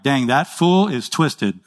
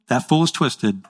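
First: Drawn-out, slow mock verdict on a fool; slow judging aside. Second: Said in the usual way. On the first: Preacher mocking an evil person, slow and dry. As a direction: savour it slowly, dry and knowing. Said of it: "and I'm like". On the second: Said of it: "the Bible says".

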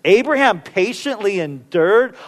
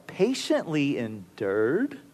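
First: Incredulous. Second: Softer, slow doubtful echo rising at the end; quiet disbelief. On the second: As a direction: mutter it to yourself in disbelief. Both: Retold or imitated. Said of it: "I think to myself".

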